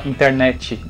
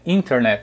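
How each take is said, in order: First: The stress is on the last syllable. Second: The stress is on the first syllable. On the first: This is how it is said in Brazilian Portuguese. "A gente fala internet, né? O finalzinho é mais forte" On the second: This is the original English pronunciation. "a pronúncia original em inglês é"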